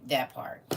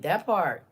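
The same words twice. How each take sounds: First: Said in the usual way. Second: "part" punched louder with a falling end; stress on part. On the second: Shown as a demonstration. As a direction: hit the word "part" hard and drop it.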